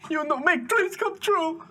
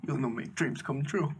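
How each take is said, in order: First: High, slow, wailing imitation of an accusation; mock breaking into tears, pitched way up; tearful outburst. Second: Holding back tears. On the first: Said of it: "Genuine tears out of his eyes". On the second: Retold or imitated. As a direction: imitate a choked-up guest, kept quiet. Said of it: "trying to hold back tears".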